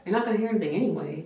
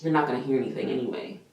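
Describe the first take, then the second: First: Quick, sneering parody of the tech's line; mocking mimicry. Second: Quick, curt brush-off from the tech; dismissive retort. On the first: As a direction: throw her own words back, mocking. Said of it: "I was like". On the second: Retold or imitated. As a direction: toss it off as if he's bothering her. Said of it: "She was like".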